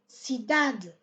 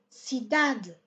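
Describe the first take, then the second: First: The stress falls on the syllable 'da'. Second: The stress falls on the syllable 'da'.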